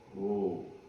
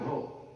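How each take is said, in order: First: It is said long and soft. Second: It is said short and sharp.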